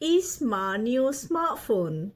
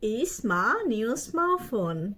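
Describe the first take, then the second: First: The words are run together and reduced. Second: The words are run together and reduced.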